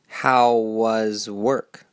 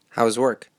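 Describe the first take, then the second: First: The phrase is spoken very slowly. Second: The phrase is spoken at fast natural speed. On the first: "At first, it will be very slow" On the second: "At the end, it will be native speaker speed"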